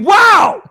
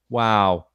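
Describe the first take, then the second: First: It is said with exclamation and excitement. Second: It is said flatly, without excitement.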